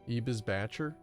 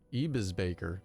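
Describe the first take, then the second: First: The name is said with German sounds. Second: The name is said with English sounds.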